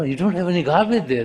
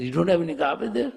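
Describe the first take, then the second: First: Quick, higher-pitched correction; insistent denial. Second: Quick, high, rising question; disbelieving echo question. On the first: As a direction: firmly set the listener straight, fast. Disciple corrects the pig's garbage hope. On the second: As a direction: echo it back as a startled question. Pig echoes the disciple in disbelief. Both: Acted.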